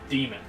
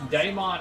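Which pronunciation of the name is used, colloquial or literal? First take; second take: literal; colloquial. First: It is pronounced exactly like the word demon. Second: It uses the usual colloquial pronunciation of the name. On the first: The name is literally the word demon. "the actual proper pronunciation" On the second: This is how fans normally say the name. "the like proper colloquial pronunciation"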